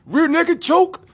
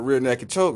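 First: High, drawn-out mock battle cry; hammed-up loud, slow fight yell; shouted move call. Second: Said in the usual way. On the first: Acted fighter announcing his move.

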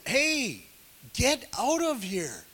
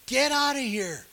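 First: Higher, half-shouted Pharaoh sending him off; mock yelling Pharaoh. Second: Higher, louder repeat of the order; mock yelling Pharaoh. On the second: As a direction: shout the order again, harder. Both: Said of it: "I bet there was yelling back then".

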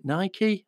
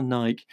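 First: "Nike" said as NY-kee; Nike with two syllables. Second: "Nike" said as NYKE, rhyming with bike; no ee at the end of "Nike"; Nike with one syllable. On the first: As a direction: end "Nike" on an ee sound. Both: Shown as a demonstration. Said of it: "is it Nike or Nike?".

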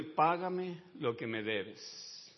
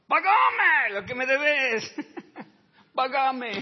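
First: A calm slow reading of the demand; slow quoted demand. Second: Shouted high, slow and strained with a laugh; a hammed-up furious creditor; furious demand. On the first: Acted. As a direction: read out slowly and evenly. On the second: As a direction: bellow the demand like a choking creditor. Servant choking his debtor.

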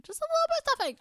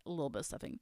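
First: Very high, squeaky little voice; tiny playful voice. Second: Low, very soft mumble; downplayed aside. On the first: Pretend. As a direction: squeak it as a cute excuse. Playfully pleads for a little stuffing. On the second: Real, not acted. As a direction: tuck it away quietly, much lower. Downplays the stuffing to herself.

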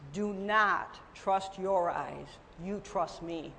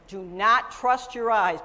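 First: Slow, soft and solemn; God speaking gently. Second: Louder, stress on not; emphatic repeat. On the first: Retold or imitated. God speaking tenderly to the believer, slow and soft. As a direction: deliver it slowly as a gentle divine word. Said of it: "the Lord is telling". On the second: Shown as a demonstration. Preacher warning congregation, stress on not. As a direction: hammer the word not. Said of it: "preacher repeats to congregation".

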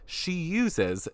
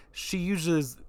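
First: Said in the usual way. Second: "uses" slurred with a zh in the middle; tongue-tied slip. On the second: Real, not acted. Podcaster fumbling while praising Crystal, tongue-tied slur on "uses". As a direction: trip over "uses", mushing it to "yoozhes". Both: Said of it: "I cannot speak today".

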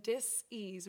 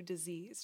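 First: "dis-ease" slowly broken into two words; split DIS-EASE. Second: Said in the usual way. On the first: Retold or imitated. Therapist warns client about stress, "dis-ease" split in two. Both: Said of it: "dis-ease brings you disease".

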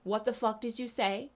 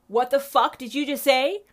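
First: Stunned question. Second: Louder, higher outraged demand; outraged repeat. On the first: Reacting to the pastor's clip. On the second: Reacting to the pastor's clip, louder outraged demand. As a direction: throw the question back, incensed. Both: Real, not acted.

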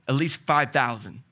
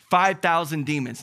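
First: Said in the usual way. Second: Five thousand said louder, hit on Five; stress on five thousand. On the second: Real, not acted. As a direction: punch Five for awe. Repeats number with emphasis.

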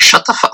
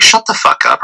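First: High-pitched mock outburst; retold exasperation. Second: Low, understated brush-off; retold dismissal. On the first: Man reacts to date's boyfriend claim, high mock exasperation. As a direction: blurt it high, imitating your reaction. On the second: Man dismisses date's boyfriend claim, low retold dismissal. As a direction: drop the pitch, dismiss it without raising your voice. Redoes the reaction in lower voice.

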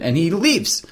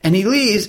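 First: Said in the usual way. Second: Repeated with higher pitch on leaves; emphatic repeat. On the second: Real, not acted. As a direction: stress the leaving for effect.

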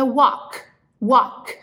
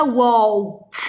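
First: WALK said as "wawk"; "walk" with no L at all; silent L. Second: WALK with a drawn-out L before K; "walk" said as "wol-k"; wrong voiced L. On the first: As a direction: go from vowel straight to K in "walk". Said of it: "você não vai pronunciar esse L". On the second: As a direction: sound the L in "walk". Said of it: "Não é walk". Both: Shown as a demonstration.

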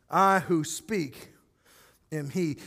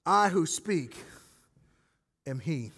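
First: Slowed solemn reading. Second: Solemn revelation. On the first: Shown as a demonstration. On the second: Retold or imitated. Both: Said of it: "Jesus uses this phrase".

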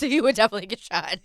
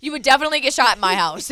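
First: Louder, laughing repeat of the warning. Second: Higher and louder, emphatic warning; loud playful warning about shooting intruders. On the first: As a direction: say it again with a laugh. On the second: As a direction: declare it loudly with a laugh behind it. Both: Real, not acted. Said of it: "Let that be known".

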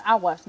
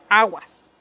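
First: Said in the usual way. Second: Aguas fuerte y cortado como advertencia; aviso aguas. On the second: Shown as a demonstration. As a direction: grita aguas para avisar. (aguas con fuerza de alerta) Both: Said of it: "O sea".

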